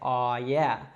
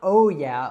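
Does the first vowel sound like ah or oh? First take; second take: ah; oh. First: The first vowel is an open ah sound. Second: The first vowel is a rounded oh sound. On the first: The speaker calls it right. "it's ah" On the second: The speaker calls it wrong. "it's not oh yeah"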